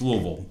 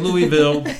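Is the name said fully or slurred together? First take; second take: slurred; fully. First: The name is rolled and slurred together. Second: The name is said with each syllable clearly. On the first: The speaker knows the place. The speaker calls it right. "You've got to roll it kind of like that" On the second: The speaker has never been there. The speaker calls it wrong. "Don't say Louisville"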